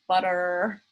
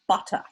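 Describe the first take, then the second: First: It is said in an American accent. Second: It is said in a posh English accent.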